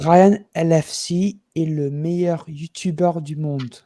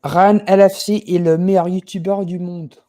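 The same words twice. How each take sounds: First: Slow, careful French, each word laid out; same French line, deliberately slowed. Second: Louder, confident French delivery showing off fluency; French sentence. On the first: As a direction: say it again slowly for the listener. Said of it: "Slow it, slow, slow". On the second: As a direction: speak it like a native Frenchman, proud. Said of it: "Say it in French". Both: Shown as a demonstration.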